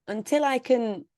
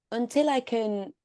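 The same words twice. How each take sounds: The two takes are said the same way.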